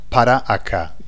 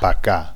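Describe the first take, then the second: First: Both words are said in full, four syllables. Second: The two words are merged into two syllables. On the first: This full form is rarely heard in speech. The speaker calls it wrong. "Not para acá. You won't hear it" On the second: This is how people in Spain usually say it. The speaker calls it right. "They shorten it down and they say"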